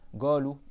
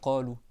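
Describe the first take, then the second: First: It begins with a hard g sound. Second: It begins with a deep q sound. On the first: This is how some regional dialects say it. "certains dans leur dialecte ils parlent comme ça" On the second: This is the standard way to say it. "au lieu de dire"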